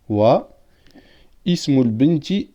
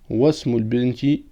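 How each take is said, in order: First: There is a break and the initial 'i' is sounded. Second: The words link and the initial 'i' is dropped. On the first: "si on marque un temps d'arrêt. On aurait pu dire" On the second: "elle ne se prononce pas pendant la liaison"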